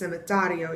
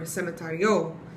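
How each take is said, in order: First: The stress falls on the accented syllable. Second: The stress falls on an unmarked syllable. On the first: The speaker calls it right. "You're putting that emphasis on the syllable that has the accent mark" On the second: The speaker calls it wrong. "not cemetario or cemetario"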